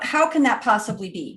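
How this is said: It sounds genuinely curious and open.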